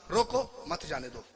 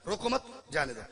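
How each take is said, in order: First: रोको raised, break, मत जाने दो falling; pause after रोको. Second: रोको मत joined, break, जाने दो falling; pause after मत. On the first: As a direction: order to stop: रोको set apart from मत जाने दो. ("रोको" के बाद ठहराव, फिर "मत जाने दो") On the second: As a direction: order to let go: रोको मत, then जाने दो. ("रोको मत" के बाद ठहराव, फिर "जाने दो") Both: Shown as a demonstration. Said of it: "लहजे का स्वाद है".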